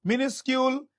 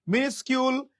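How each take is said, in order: Both takes have the same delivery.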